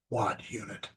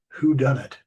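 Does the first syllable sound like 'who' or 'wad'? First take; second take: wad; who. First: The first syllable sounds like 'wad'. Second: The first syllable sounds like 'who'. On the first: The speaker calls it wrong. "I was just pronouncing it wrong" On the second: The speaker calls it right. "the word was who done it"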